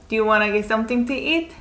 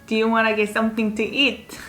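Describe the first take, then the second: The two takes are said the same way.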